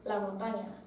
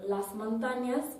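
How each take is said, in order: First: The s sounds are dropped or aspirated. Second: The s sounds are clearly pronounced.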